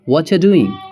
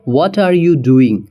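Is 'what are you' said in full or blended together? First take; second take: blended; full. First: What are you is blended into one word, whatcha. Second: Each word of what are you is said separately.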